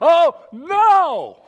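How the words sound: It sounds terrified and panicked.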